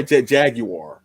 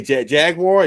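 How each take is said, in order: First: "Jaguar" as JAG-you-ar; three-syllable Jaguar. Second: "Jaguar" as JAG-war; two-syllable Jaguar. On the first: Podcaster offering the second option, three syllables. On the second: Podcaster offering the first option, two syllables. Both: Shown as a demonstration. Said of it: "What do you say?".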